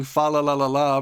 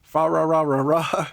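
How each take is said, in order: First: "fa la la la la" with clear Ls; sing-song carol syllables, "fa la la la la"; crisp English L on each "la"; L sounds. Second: "fa ra ra ra ra" with Rs replacing every L; mock-carol "fa ra ra ra ra", each L turned to R. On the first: Retold or imitated. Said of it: "they're trying to sing". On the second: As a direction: imitate the carol with "ra" for "la". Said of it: "but they say".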